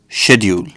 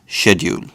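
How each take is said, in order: No difference in how they are said.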